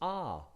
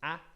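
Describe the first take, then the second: First: The vowel is long, as in father. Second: The vowel is short, as in cat. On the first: "if there's a macron, it's a" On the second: "if there's no macron, it's a"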